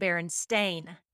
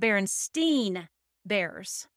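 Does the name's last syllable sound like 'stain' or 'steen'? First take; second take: stain; steen. First: The last syllable of the name sounds like 'stain'. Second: The last syllable of the name sounds like 'steen'. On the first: This is the real name. The speaker calls it right. "They're actually" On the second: This is how people remember the name. The speaker calls it wrong. "We remember them as"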